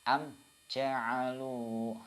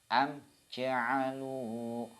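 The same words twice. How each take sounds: Both takes have the same delivery.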